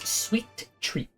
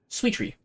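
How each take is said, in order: First: The phrase is said at a normal pace. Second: The phrase is said fast, blurring the final t.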